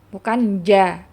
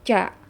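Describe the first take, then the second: First: The consonant sounds like a voiced 'j'. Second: The consonant sounds like a voiceless 'ch'. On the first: The speaker calls it right. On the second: The speaker calls it wrong. "ada seperti huruf C nyambung di huruf jim"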